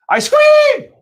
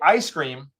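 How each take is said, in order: First: It is shouted loudly like a scream. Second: It is said plainly at normal volume.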